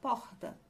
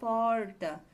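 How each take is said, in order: First: The R is made in the throat. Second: The R is made with the tongue curled back. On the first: This is how people in the speaker's own region say it. "Com esse R, né? Podemos dizer R do dígrafo" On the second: This is how people in inland São Paulo say it. "nossa língua dá uma curva na boca"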